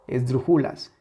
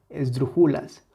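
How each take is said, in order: Both takes have the same delivery.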